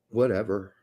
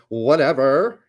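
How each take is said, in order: First: It is said in a plain voice. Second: It is said in a Valley Girl voice.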